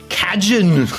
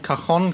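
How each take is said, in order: First: The word is pronounced with English sounds. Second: The word is pronounced with Spanish-like sounds. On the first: "Very, very English pronunciation" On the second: "We pronounce it in a very Spanish way"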